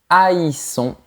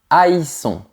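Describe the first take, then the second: No difference in how they are said.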